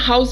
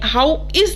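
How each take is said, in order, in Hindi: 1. एक संकुचित शब्द, 'how's'। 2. दो पूरे शब्द, 'how' और 'is'। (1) "ऐसे बोलना है" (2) "यहां पर भी आपने हाउ इज नहीं बोलना"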